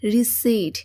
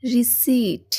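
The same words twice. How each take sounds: Both takes have the same delivery.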